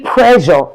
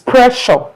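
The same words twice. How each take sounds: First: The middle consonant is a voiced 'zh' sound. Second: The middle consonant is a voiceless 'sh' sound. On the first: The speaker calls it wrong. "if you've been saying pressure, no" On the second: The speaker calls it right. "Did you notice the S H sound is different from the others?"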